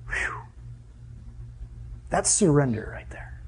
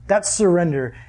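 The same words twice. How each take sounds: First: Soft, breathy whisper of awe; awed whisper. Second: Said in the usual way. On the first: Real, not acted. Preacher hushed before his church, whispering in awe. Awed aside after the kneeling story.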